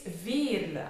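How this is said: It is said with a Flemish accent. The speaker calls it right. "it's a typical Flemish name"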